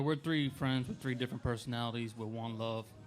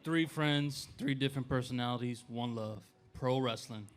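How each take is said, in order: First: It is said in a casual, low-energy way. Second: It is said loudly and forcefully.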